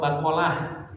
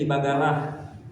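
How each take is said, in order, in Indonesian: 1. Konsonan tengahnya bunyi Q yang dalam. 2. Konsonan tengahnya bunyi G yang keras.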